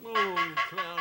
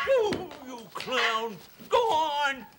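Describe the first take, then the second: First: Said in the usual way. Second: Higher and slowly drawn-out oh you clown; hammed-up slow exclamation at the prankster; exasperated exclamation. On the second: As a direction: stretch the oh out in mock outrage. Clown squirts him again.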